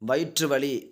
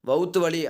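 First: The first word is said in full as vayitru. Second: The first word is shortened to vouthu. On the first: This is the pure literary form. "தூய தமிழ் சொல்" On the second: This is the everyday spoken form. "பேச்சு வழக்கு"

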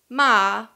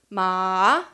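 First: Ma is said with the tone meaning scold. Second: Ma is said with the tone meaning horse. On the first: The word means scold. "would mean scold" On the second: The word means horse. "would mean horse"

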